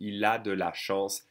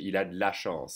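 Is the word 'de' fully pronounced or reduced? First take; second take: full; reduced. First: The word de is said in full, unhurried. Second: It is faster, with de reduced to d. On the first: "we say il a de la chance" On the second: "if I say it faster, I would swallow the E"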